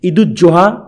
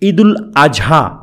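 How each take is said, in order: First: It is said with a doubled z sound: Eid-uz-Zoha. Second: It is said with an l and a-sound: Eid-ul-Azha. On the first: The speaker calls it wrong. "ঈদুজ্জোহা আসলে ঠিক নয়" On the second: The speaker calls it right. "ঈদুল আজহা এটাই ঠিক"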